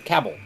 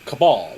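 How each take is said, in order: First: It is said much like the word cable. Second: It is said as ca-bal, unlike cable. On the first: The speaker calls it wrong. "they pronounce it Levant and cable" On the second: The speaker calls it right. "should be spelled spell uh, pronounced cabal"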